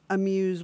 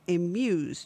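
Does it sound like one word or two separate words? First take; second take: one word; two words. First: It is said as one joined word. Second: It is said as two separate words. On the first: The speaker calls it wrong. "not Amuse, one word" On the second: The speaker calls it right. "but Amuse, two words"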